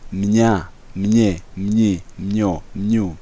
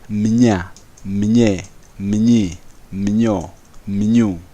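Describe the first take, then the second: First: The syllables are said fast. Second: The syllables are said slowly.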